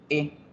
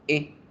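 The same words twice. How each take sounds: Both takes have the same delivery.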